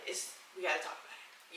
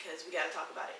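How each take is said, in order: First: "gotta" whispered, much softer, unvoiced. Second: Said in the usual way. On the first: Real, not acted. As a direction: breathe the repeat as a secret aside. Repeats the line.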